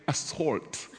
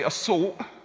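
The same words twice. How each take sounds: First: The L and T sounds are clearly pronounced. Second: The L and T sounds are dropped. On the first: The speaker calls it right. "I'm actually trying to say assault" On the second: The speaker calls it wrong. "I don't pronounce my L's and my T's very well"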